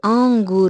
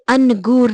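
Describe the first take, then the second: First: The vowel is nasalized without a full n. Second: The n is pronounced as a full consonant. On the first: The speaker calls it right. "ये आंगूर है, ये नून गुन्ना है" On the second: The speaker calls it wrong. "ये अनगूर नहीं है, हम इसको अनगूर नहीं कहते"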